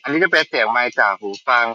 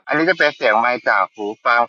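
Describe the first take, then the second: First: The voice is recorded amid heavy rain noise. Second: The voice is recorded amid shopping mall noise. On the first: "ตอนนี้จำลองเสียงฝนตกเสียงจะประมาณนี้" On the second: "ตอนนี้จำลองเสียงอยู่ในห้างเสียงจะประมาณนี้"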